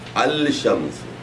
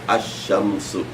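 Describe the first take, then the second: First: A clear L is said before the sh. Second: The L is dropped and the sh is doubled. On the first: The speaker calls it wrong. "you don't say al shamsu" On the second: The speaker calls it right. "lam is not pronounced. Instead, you you say sheen twice"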